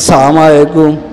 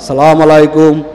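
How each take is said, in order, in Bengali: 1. শুরুর 'as' ধ্বনিটি বাদ পড়ে। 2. শুরুর 'as' ধ্বনিটি বাদ পড়ে।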